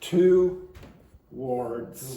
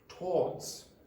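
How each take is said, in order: First: The word is said with two syllables. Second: The word is said with one long syllable. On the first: "how many syllables? Two" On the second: "some R P accents actually used to pronounce that with one syllable"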